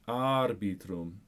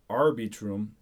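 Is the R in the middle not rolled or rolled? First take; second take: rolled; not rolled. First: The middle R is lightly rolled. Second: The middle R is not rolled. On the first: The speaker calls it right. "I did a little rolled R in between them" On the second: The speaker calls it wrong. "instead of arbitrum"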